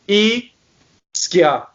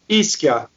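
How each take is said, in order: First: The word is said slowly and drawn out. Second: The word is said quickly. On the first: "If I did it slow motion" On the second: "when you say it fast"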